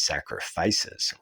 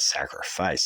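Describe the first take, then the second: First: "sacrifices" drawn out slowly, ending rising; plural stressed. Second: "sacrifice" said singular, slowly; wrong singular. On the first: Correcting the word for the listeners, slow rising "sacrifices". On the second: Correcting himself to the listeners, slow singular "sacrifice". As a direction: say "sacrifice" as the rejected form. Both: Shown as a demonstration. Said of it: "Not sacrifice".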